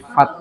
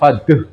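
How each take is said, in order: First: The word ends lightly with no added vowel. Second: An extra vowel is added after the final sound. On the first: The speaker calls it right. "tapi fat, ringan saja" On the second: The speaker calls it wrong. "sampun faduh"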